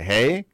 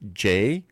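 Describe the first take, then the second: First: The letter is said like 'hay'. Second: The letter is said like English 'jay'. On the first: The speaker calls it right. "The J is called He" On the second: The speaker calls it wrong. "in English we'd say J"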